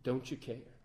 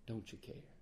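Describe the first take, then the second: First: Said in the usual way. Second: A much softer, near-breathless echo of the plea; soft despairing echo to the Lord; faint plea. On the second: Shown as a demonstration. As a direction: let the question fade almost to nothing. Pleading prayer quoted, repeated.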